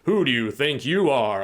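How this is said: It sounds angry and threatening.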